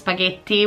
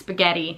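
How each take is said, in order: First: The double T is a clear, held T sound. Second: The double T sounds almost like an R. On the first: "we pronounce spaghetti with a double T" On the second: "in America it's spaghetti. Like the double T is almost an R"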